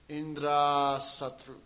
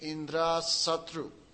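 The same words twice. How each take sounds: First: The vowel before 'Satru' is long. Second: The vowel before 'Satru' is short. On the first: A friend of Indra will be produced. The speaker calls it wrong. "he pronounced a long A instead of short A" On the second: An enemy of Indra will be produced. The speaker calls it right. "Instead of saying Indra Satru"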